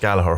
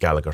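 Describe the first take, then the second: First: The name is said the local Irish way. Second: The name is said the family's own way. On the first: This is how people locally say the name. "it's Gallagher here" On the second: This is how the bearers say their own name. "they pronounce it Gallagher"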